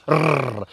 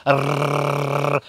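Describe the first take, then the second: First: Short trilled "Rrr"; rolled R. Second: Long, sustained trilled "Rrr"; chainsaw rolled R. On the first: Welsh teacher showing learners how to roll R's, short rolled "Rrr". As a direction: roll the tongue on a brief "Rrr". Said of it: "In Welsh, we roll our R's". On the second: Welsh teacher starting the chainsaw, long buzzing rolled "Rrr". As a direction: rev the tongue like a chainsaw on "Rrr". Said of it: "we're starting the chainsaw". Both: Shown as a demonstration.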